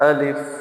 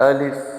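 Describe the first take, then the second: Both takes have the same delivery.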